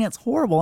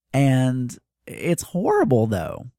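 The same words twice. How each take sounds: First: 'horrible' said much higher and emphatic; higher repeat. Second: Said in the usual way. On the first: Real, not acted. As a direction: push the repeat up high.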